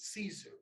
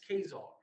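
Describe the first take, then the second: First: The word begins with an s sound. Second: The word begins with a hard k sound. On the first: The speaker calls it wrong. "That word is not Caesar. That's what they told us in, in their schools" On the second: The speaker calls it right. "If you look at that pronunciation up, even on Wikipedia, that's Khazar"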